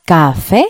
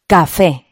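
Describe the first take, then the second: First: "café" drawn apart as ca, fé, rising at the end; two-syllable sounding out of "café", lifted on fé; split into syllables. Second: Said in the usual way. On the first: Shown as a demonstration. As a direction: say "café" in two separate beats. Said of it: "Tiene dos sílabas".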